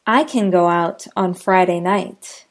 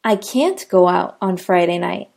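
First: "can" reduced and light, no stress; unstressed can. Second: "can't" stressed with a rise. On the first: Teacher demoing can for learners, "can" unstressed. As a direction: keep "can" weak and quick. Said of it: "Listen for the can and can't". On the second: Teacher demoing can't for learners, "can't" stressed. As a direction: lean on "can't". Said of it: "The word can't is always stressed". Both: Shown as a demonstration.

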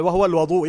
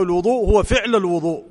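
First: الوضوء said al-waḍū', with "a" after the و; الوضوء begins with a short "wa", not "wu"; fatha on the waw. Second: الوضوء said al-wuḍū', with "u" after the و; both times الوضوء begins with a short "wu"; damma on the waw. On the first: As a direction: open the first vowel of الوضوء to "wa". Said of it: "قلنا بالواو ما معناه". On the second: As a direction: round the first vowel of الوضوء to "wu". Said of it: "بضم الواو". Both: Shown as a demonstration.

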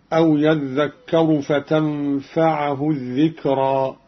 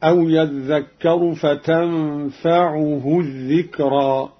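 First: Slow measured recitation with فتنفعه read with fatha on the ain; common reading. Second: Slow recitation with فتنفعه read "fa-tanfa-'u-hu"; damma on the ain. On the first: Teacher quotes the verse before Qalun's variant, common reading. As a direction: say فتنفعه as "fa-tanfa-'a-hu". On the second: Teacher shows Qalun's reading, damma on the ain. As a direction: put an u vowel on the ain of فتنفعه. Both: Shown as a demonstration. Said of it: "بضم العين رفعا هكذا".

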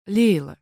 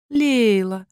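First: Name said plainly, firm and straight; firm and direct. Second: Velvety honeyed voice. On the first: Рассказчица начинает серьёзный разговор с сестрой, твёрдо. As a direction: set the tone, no nonsense. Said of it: "начала я твёрдо и прямо". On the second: Найли ласково подзывает Лейлу, бархатно-медовым голосом. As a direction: purr her name like velvet and honey. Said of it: "бархатно-медовым голосом". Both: A narrator's reading.

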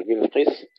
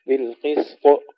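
First: بالقسط with the ط held and doubled; wrong doubled ta. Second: بالقسط with a light qalqala bounce on ط, not doubled; correct bouncing ta. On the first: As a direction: press the ط of بالقسط too hard. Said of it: "حتى لا نشدد الطاء". (بالقسط بطاء مشددة خطأ) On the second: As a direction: release the ط of بالقسط with a quick echo. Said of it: "قلقلة بدون تشديد". (بالقسط بقلقلة دون تشديد) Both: Shown as a demonstration.

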